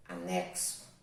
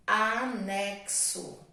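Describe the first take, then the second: First: Said in the usual way. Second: Anexo drawn out slowly for the class; slow dictation. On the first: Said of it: "repeated dictation word". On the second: Shown as a demonstration. Teacher reading anexo slowly to children taking dictation. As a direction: stretch anexo out syllable by syllable. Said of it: "dictation, slowed word".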